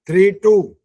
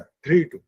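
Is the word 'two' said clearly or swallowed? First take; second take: clear; swallowed. First: The final word 'two' is said fully and clearly. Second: The final word 'two' is swallowed and weak. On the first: The speaker calls it right. "ऐसे बोलना था। टू भी तो clear बोलना" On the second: The speaker calls it wrong. "नहीं ऐसे नहीं, पूरा बोल"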